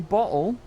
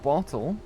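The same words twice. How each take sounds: First: The T sound in the middle is dropped. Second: The T sound in the middle is pronounced.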